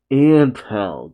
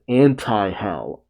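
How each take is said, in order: First: "Ant hell" as two separate words; corrected to ant hell. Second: "anti-hell" with an extra syllable after ant; misheard as anti-hell. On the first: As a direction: say "Ant hell" with no middle syllable. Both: Shown as a demonstration. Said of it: "I thought he said anti-hell".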